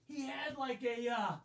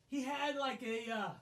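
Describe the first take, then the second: No difference in how they are said.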